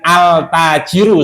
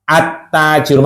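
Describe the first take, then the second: First: The l of the article is clearly pronounced. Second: The article's l merges into a doubled t. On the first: The speaker calls it wrong. "bacanya bukan al-tajiru, salah" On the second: The speaker calls it right. "masuk ke huruf setelah alif lam"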